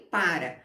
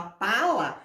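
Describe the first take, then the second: First: Said in the usual way. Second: Put-on "pala" said with an L where the R should be, as a baby says it; baby's mispronunciation. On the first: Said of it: "os adultos vão repetir e falarem". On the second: Shown as a demonstration. Teacher shows parents how a baby says the word, mispronounced. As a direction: say "pala" the way a baby gets it wrong, l instead of r. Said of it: "se o bebê fala".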